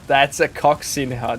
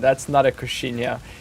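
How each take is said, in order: First: The middle consonant is said as ks. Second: The middle consonant is said as sh. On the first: The speaker calls it right. "there's an X there" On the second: The speaker calls it wrong.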